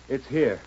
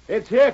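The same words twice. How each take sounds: First: It is called out quietly. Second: It is called out loudly.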